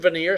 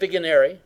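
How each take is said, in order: First: The name ends with a short 'neer' sound. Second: The name ends with a longer 'nary' sound. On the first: The speaker calls it right. "It's actually veneer cipher" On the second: The speaker calls it wrong. "it looks like Vigenary"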